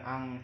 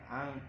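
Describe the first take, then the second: First: The nasal is a clear, full ng sound. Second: The nasal is faint and hidden but audible. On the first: The speaker calls it wrong. "bukan ang" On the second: The speaker calls it right. "Masih terdengar namun rada samar"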